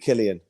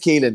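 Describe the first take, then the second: First: The first vowel is short, like in 'kill'. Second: The first vowel is long, like in 'keel'. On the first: It follows the name's spelling. "I'm going to pronounce it Killian" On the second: It follows the player's own pronunciation. "it is Keelan, to be fair"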